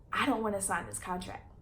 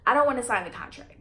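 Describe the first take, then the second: First: Emotional. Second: Firmer faster repeat. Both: Real, not acted. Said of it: "I'm getting a little emotional right now".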